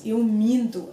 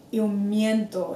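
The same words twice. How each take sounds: First: Slow minto with nasal ee; nasal vowel. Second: Slow miento with a ye glide; wrong version. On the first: Co-host corrects Spanish speakers, slow nasal minto. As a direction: say minto as MEEN-too through the nose. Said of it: "nasal vowel". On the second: Co-host warns Spanish speakers, mistaken slow miento. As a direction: say miento as MYEN-to, Spanish style. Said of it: "it's not eu". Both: Shown as a demonstration.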